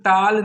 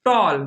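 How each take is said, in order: First: टाल with a long open "aa", as in "taal"; wrong vowel demo. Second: टॉल with a rounded "aw", as in English "tall"; correct vowel demo. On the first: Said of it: "मतलब टाल नहीं". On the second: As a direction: say टॉल as "tawl". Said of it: "पढ़ना क्या है?". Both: Shown as a demonstration.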